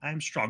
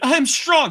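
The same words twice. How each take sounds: First: It is said weakly, without conviction. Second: It is said firmly, with conviction.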